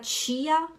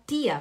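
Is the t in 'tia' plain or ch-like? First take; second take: ch-like; plain. First: Belém accent, with a ch-like t. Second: Recife accent, with a plain t.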